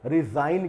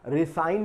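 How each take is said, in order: First: The middle consonant is a buzzing z sound. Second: The middle consonant is a hissing s sound. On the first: The speaker calls it right. "इसमें जा का उच्चारण किया जाता है, जैड का।" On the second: The speaker calls it wrong. "रिसाइन नहीं कहते इसको"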